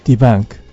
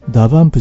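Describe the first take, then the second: First: It is said in English style, 'debunk'. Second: It is said like Japanese katakana, 'dabanpu'. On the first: The speaker calls it right. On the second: The speaker calls it wrong.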